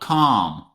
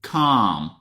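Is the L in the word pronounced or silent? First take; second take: silent; silent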